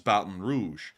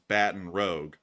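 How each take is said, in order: First: It is said with a French-style pronunciation. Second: It is said with an anglicized pronunciation. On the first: The speaker calls it right. "it still holds its original French pronunciation" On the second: The speaker calls it wrong. "a lot of people would say that this is"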